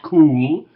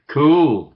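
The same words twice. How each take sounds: First: The vowel is said with rounded lips. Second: The vowel is said with spread lips. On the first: This is the older way of saying it. "not cool" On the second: This is how young people say it today. "This lip spreading is taking place"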